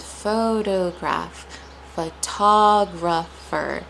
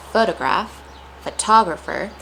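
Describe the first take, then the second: First: Photograph, photographer pulled apart slowly; broken up slowly. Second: Said in the usual way. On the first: Shown as a demonstration. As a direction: break photograph, photographer into slow syllables. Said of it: "sometimes breaking it up". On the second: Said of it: "say it in a natural pace".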